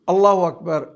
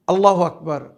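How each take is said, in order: The two takes are said the same way.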